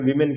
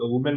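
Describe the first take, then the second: First: The first vowel sounds like 'ee'. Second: The first vowel sounds like 'oo'. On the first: The speaker calls it right. "Correct जो है ना उच्चारण वीमेन कहते हैं" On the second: The speaker calls it wrong. "वुमेन में बोल रहा हूँ एक्चुअली"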